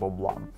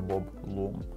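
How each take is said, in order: First: The surname has an 'ah' vowel. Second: The surname has an 'oo' vowel. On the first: The speaker calls it right. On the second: The speaker calls it wrong.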